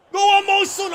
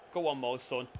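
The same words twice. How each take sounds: First: High, loud roar of encouragement; excited shout. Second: Said in the usual way. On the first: Real, not acted. Gamer urging his striker on, roaring loud and high. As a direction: scream him on to score. Urging player on before the shot.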